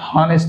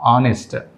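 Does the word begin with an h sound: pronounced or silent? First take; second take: pronounced; silent. First: The word starts with an audible h sound. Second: The word starts with a vowel, no h sound. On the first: The speaker calls it wrong. "ఈ వర్డ్లో మనం హెచ్ హానెస్ట్ అనుకుంటాం. అది హానెస్ట్ కాదు" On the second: The speaker calls it right. "హెచ్ is silent"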